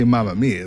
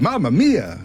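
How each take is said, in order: First: It is said flatly without energy. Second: It is said with lively energy.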